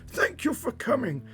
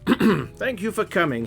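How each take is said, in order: First: It is said in a frail, weak old voice. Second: It is said in a normal, steady voice.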